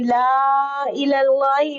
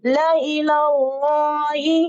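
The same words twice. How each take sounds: First: ला इलाही with the extra vowel sounded as iləlaji; wrong reading. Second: ला इलाही recited slowly as la ilaai, no extra syllable; correct reading. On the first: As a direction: show the mistake to avoid. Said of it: "ला इलाही नहीं पढ़ेंगे". (ला इलाही की गलत अदायगी) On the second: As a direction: model the right recitation. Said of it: "बल्कि कैसे पढ़ेंगे". (ला इलाही की सही तिलावत) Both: Shown as a demonstration.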